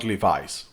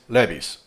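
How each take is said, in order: First: It is said with an English pronunciation. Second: It is said with a Spanish pronunciation. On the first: "not Levi's" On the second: "in Spanish, we say this Levi's"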